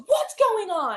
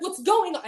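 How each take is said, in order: First: Higher, louder sharp demand; a retold sharp demand; demanding aunt. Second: Mocking echo. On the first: Aunt barging in on the scolding, sharp and loud. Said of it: "she comes in, she goes". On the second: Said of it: "And I'm like".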